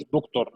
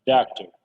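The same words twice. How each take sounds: First: دكتور said with a full rounded O, the wrong way; دكتور with a clear O sound, as not to say it; wrong doctor. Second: دكتور said daktr, the O almost dropped; teacher modelling دكتور, O barely there; doctor without the o. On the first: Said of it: "ما نقولش دكتور، لا". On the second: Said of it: "تحس الأو كده مش موجودة خالص". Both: Shown as a demonstration.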